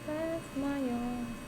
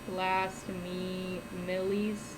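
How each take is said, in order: First: The name is pronounced normally with two syllables. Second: The name is deliberately mangled with extra syllables.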